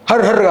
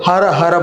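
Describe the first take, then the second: First: The final vowel of each word is dropped. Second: The final vowel of each word is pronounced. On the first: The speaker calls it wrong. "సరిగ్గా పలకడం చేత కాదు" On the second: The speaker calls it right. "వినండి"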